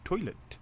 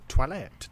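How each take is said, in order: First: Said in the usual way. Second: "toilet" said French-style as twa-LET; mock-French "toilet", twa-LET; French pronunciation. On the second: Shown as a demonstration. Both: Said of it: "the French pronunciation, I see".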